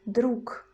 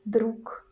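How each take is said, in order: First: The word ends with a voiceless K sound. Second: The same.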